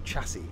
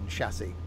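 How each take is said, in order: First: The word is said in an American way. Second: The word is said in a British way. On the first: The speaker calls it wrong. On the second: The speaker calls it right.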